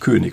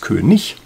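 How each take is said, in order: First: The word ends with a hard k sound. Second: The word ends with a soft ch sound. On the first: The speaker calls it wrong. "standardsprachlich ist es gar nicht König" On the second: The speaker calls it right. "Also genau das gleiche Ich am Ende wie bei hässlich"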